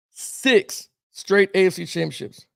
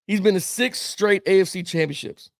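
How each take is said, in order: First: "Six straight A F C championships" slowed right down, each word weighed; slow emphatic repeat. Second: Said in the usual way. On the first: Real, not acted. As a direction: drag out "Six straight" to drive the point home.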